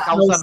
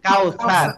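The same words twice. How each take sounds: First: The middle consonant is an s sound. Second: The middle consonant is a th sound. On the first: The speaker calls it wrong. "আসলে কাউসার না" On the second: The speaker calls it right. "থা দিয়ে হচ্ছে আল কাউসার"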